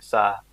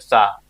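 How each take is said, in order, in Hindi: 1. स्वर धीरे और शांत आवाज़ में बोला गया है। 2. स्वर ज़ोर से और दमदार आवाज़ में बोला गया है। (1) "धीरे बोल रहे हैं" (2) "जोर से बोलेंगे"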